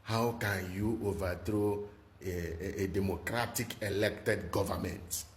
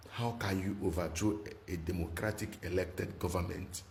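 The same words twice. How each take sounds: First: Mocking the West. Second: Said in the usual way. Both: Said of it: "they were ranting that".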